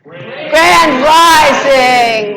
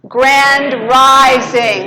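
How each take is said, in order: First: It is said with more enthusiasm and energy. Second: It is said calmly, with ordinary energy.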